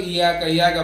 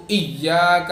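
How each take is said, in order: First: Quick ایاک with a single y; unstressed, undoubled y in ایاک; wrong, without tashdeed. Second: ایاک with a held double y; emphatic doubled "iyy" in ایاک; firm tashdeed. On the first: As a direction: say ایاک lightly as "iyaaka". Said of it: "یہاں پہ یا پہ تشدید ہے". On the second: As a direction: press hard on the y of ایاک. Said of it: "یا پہ تشدید ہے". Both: Shown as a demonstration.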